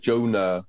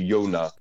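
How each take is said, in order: First: The name begins with a J sound. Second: The name begins with a Y sound.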